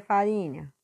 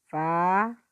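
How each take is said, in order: First: Said in the usual way. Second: "farinha" broken up, FA then a very long RI; stressed syllable. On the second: Shown as a demonstration. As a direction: sound out "farinha", holding RI at length. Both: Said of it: "você vai botar só a sílaba forte".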